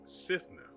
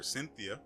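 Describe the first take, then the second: First: The name is said like Sithna. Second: The name is said like Cynthia. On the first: The speaker calls it right. "and not Sithna" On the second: The speaker calls it wrong. "I've been mispronouncing this um, thing's name"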